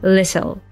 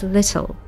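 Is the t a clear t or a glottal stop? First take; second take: clear t; clear t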